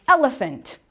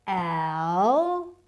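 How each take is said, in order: First: Said in the usual way. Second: "Elephant" very slow, in three separated syllables. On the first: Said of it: "tap syllables like elephant". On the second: Shown as a demonstration. Teacher tapping out syllables for parents, syllable by syllable. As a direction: stretch and part each syllable of "Elephant": el, e, phant. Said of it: "Tap the syllable".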